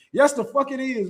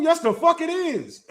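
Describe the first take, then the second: First: Said in the usual way. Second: Higher, slow, leaning hard on "fuck" in "Yes, the fuck it is."; dead-sure rebuttal, every word stretched; emphatic insistence. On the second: Real, not acted. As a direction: drawl "Yes, the fuck it is." with heavy weight on "fuck". Insisting twerking is traditional.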